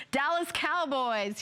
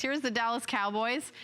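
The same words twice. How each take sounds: First: Slow, higher, put-on Texas drawl; Dallas accent. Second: Said in the usual way. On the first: Shown as a demonstration. Host trying each team's accent, in a drawn-out Texas accent. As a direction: stretch it out in a playful Dallas accent. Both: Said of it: "I'm gonna try to do the accent for each team".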